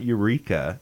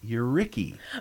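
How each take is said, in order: First: The word ends with an 'eeka' sound. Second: The word ends with an 'icky' sound. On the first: This is how outsiders say the name. The speaker calls it wrong. "it's not Eureka" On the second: This is how locals say the name. The speaker calls it right. "It's Euricky. Y-O-U-R-R-I-C-K-Y"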